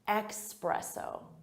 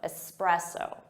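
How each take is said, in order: First: The first syllable has an X sound. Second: The first syllable has an S sound. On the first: The speaker calls it wrong. "Some native speakers will say it with an X sound" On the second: The speaker calls it right. "it should be espresso with an S sound"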